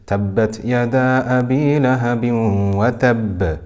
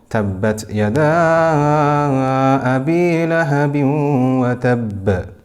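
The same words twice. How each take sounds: First: The vowel in 'yada' is held for two counts. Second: The vowel in 'yada' is held for five counts. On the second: "or five"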